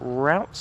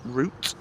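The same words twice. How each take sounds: First: The word is said in an American way. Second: The word is said in a British way. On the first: This is how Americans say it. "as the Americans would say" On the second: This is how the speaker's own people say it. "but we call it route"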